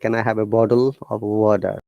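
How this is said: The T in water sounds like a D. "They will obviously say"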